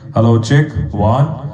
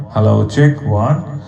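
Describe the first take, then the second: The two takes are said the same way.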